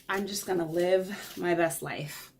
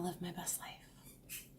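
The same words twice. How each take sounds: First: Said in the usual way. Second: Breathy whispered repeat; hushed private aside. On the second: Shown as a demonstration. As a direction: whisper it to yourself. Repeats line then whispers it.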